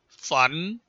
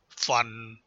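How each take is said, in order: First: The pitch rises from mid to high. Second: The pitch falls low.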